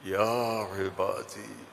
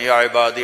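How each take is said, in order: First: It is said in a warm, loving tone. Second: It is said in a plain, flat reciting tone. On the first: It calls out with boundless love. The speaker calls it right. "इसमें जो मोहब्बत है ... जिसकी मोहब्बत भी लामहदूद है" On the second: It is read out as text. The speaker calls it wrong. "जैसे ही हमारे कारी पढ़ते हैं ... ये नहीं है"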